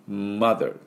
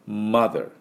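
The two takes are said the same way.

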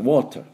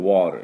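First: It has a British accent with a clear T. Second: It has an American accent with a flapped T. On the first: "イギリスだとwater" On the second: "どうしても普通に喋るとwater って言ってしまいます"

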